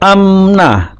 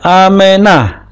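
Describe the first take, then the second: First: The m runs straight into n with no vowel. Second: A short e vowel is voiced after the m. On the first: The speaker calls it wrong. "bukan amna" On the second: The speaker calls it right. "Jadi disebutkan e-nya, e pendek"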